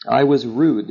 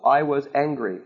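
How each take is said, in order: First: "rude" a little louder, falling firmly; little emphasis. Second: Said in the usual way. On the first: Shown as a demonstration. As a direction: lean into "rude" with a clear louder fall. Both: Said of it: "Little emphasis there".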